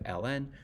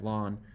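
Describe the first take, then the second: First: It is said as two separate letters. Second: It is said as one word rhyming with dawn. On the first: This is the more common current way. "ln is more common nowadays" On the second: This is an older way of saying it. "pronounced as lawn, like you mow your lawn"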